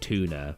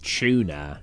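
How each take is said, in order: First: The word begins with a plain t sound. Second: The word begins with a ch sound. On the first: This is the way others say it. "instead of tuna" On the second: This is the British way people make fun of. "That and tuna"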